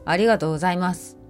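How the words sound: The voice sounds angry. "怒り、"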